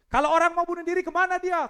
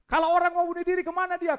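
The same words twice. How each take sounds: First: High, loud preaching cry; shouted question. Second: High, loud and fast preaching cry; faster shouted question. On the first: Preacher asking the congregation, high loud shout. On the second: Preacher repeating to the congregation, fast loud shout. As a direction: hurl it again, quicker. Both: Acted.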